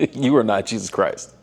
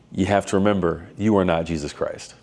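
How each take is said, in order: First: Laughing through the repeated quote; real chuckle while saying it. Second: Said in the usual way. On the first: Real, not acted.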